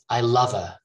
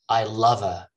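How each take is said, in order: Both takes have the same delivery.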